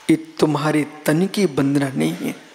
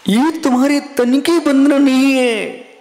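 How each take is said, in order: First: Said in the usual way. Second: ये तुम्हारे तन की वंदना नहीं है proclaimed louder and higher; emphatic proclamation. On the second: Shown as a demonstration. Devotee addressing a sage, ये तुम्हारे तन की वंदना नहीं है proclaimed louder. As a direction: ring out every word of ये तुम्हारे तन की वंदना नहीं है. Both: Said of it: "repeat said louder".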